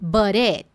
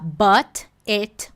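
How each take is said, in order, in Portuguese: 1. O t entre as palavras soa como r. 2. O t entre as palavras é um t claro. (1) "Surge até um sonzinho de R" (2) "Não é essa pronúncia que você vai costumar encontrar em filme"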